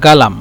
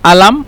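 First: গালাম with a hard g for q; teacher's g-variant of গালাম; dialect pronunciation. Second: আলাম begun on a bare vowel, no q; teacher's dialect demo of আলাম with a silent q; dialect pronunciation. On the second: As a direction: drop the opening q in আলাম. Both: Shown as a demonstration. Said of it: "এই যে লিখছি আলাম অথবা গালাম".

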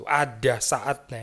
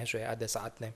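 First: Drawn-out, deliberate "Ada saatnya"; slow preacher's emphasis. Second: Hushed, dropped-down "ada saatnya"; quiet afterthought echo; soft echo. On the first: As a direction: stretch "Ada saatnya" slowly for weight. Preacher repeats key phrase slowly. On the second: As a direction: let "ada saatnya" fall to a near hush. Preacher echoes key phrase softly. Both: Acted.

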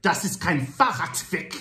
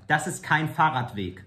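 First: High "Fahrradweg" with a spat-out T; choppy, high "Fahrradweg", T overdone; over-pronounced T. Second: "Fahrradweg" with a clear T before "weg"; T sounded. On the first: Acted. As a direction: punch the T before "weg" in "Fahrradweg". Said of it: "More fluently". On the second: Shown as a demonstration. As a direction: demonstrate "Fahrradweg" with its T pronounced. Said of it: "the T is necessary".

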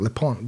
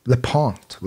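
First: "Lepont" with the final T silent; pronunciation attempt. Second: "Lepont" with a final T sounded; pronunciation attempt. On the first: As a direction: quietly try "Lepont" as "le-pon". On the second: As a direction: quietly try "Lepont", ending on a T. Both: Shown as a demonstration. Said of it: "Nasıl okunuyor bilmiyorum".

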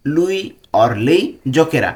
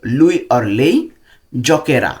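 First: Lui or lei giocherà drawn out word by word, very slowly; slow dictation. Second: Said in the usual way. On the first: Shown as a demonstration. Teacher repeats it slowly for Bengali learners, careful pace. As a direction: spell it out slowly for the class. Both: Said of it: "সে খেলবে।".

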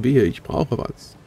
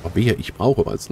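First: "Wehe" drawn out slowly with stress; slow warning repeat. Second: Said in the usual way. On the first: Shown as a demonstration. Player warning the game customer, slow and stressed on "Wehe". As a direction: slowly lean on "Wehe, ich brauche was".

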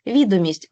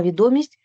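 First: Відомість with the first syllable ВІ stressed. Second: Відомість with the second syllable ДО stressed. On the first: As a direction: hit ВІ in Відомість. (Відомість з наголосом на перший склад) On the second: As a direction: lean on ДО in відомість. (відомість з наголосом на другий склад) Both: Shown as a demonstration. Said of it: "різні наголоси".

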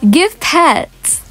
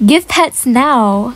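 First: Said in the usual way. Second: Drawn-out, demanding Give pets now; slow, mock-entitled order; slow bossy demand. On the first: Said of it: "we're trying to be an impersonator". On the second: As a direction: stretch it out like a spoiled idol. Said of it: "I hope you guys know I'm joking".

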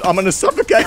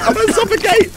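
First: Said in the usual way. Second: High-pitched fake alarm; hammed-up falsetto distress; mock panic. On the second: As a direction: squeal it in pretend panic.

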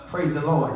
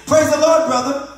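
First: Low church greeting; mock deep-voiced hello. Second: High, loud hail; exaggerated hearty hello; put-on church greeting. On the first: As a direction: answer down in a deep register. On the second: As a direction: greet a church brother with raised pitch and volume. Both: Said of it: "In that deep voice".

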